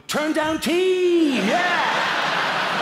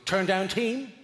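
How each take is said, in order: First: High, loud, drawn-out rallying cry; heroic team cry. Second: Lightly voiced questioning announcement; chambermaid's query. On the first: Acted. Guest answering the turn down team, hammed-up triumphant cry. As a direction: bellow it like a crime-fighting squad's battle cry. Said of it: "I was supposed to go". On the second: Chambermaid at the hotel room door, lightly imitated polite query. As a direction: offer it as a brief, neutral question. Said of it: "looks at me and goes".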